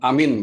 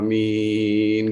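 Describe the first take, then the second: First: The word is said short and plain, without vibration. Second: The word is drawn out long with a vibrating voice. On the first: The speaker calls it wrong. "yang ngomong amin gitu aja. Nggak gitu" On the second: The speaker calls it right. "dengan suatu panjang dan ada vibrasinya gitu"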